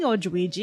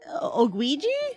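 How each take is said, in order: First: The middle consonant is a J sound. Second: The middle consonant is a hard G sound. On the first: The speaker calls it wrong. "since I've been saying Odwiji, I'm gonna keep it like that" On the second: The speaker calls it right. "I think it's actually pronounced"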